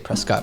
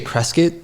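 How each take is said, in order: First: The name is said the way outsiders say it. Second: The name is said the way locals say it. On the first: The speaker is not from the town. The speaker calls it wrong. "if you say Prescott, we know you're not from Prescott" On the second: The speaker is from the town. The speaker calls it right. "we say Prescott. That's like the, the local pronunciation"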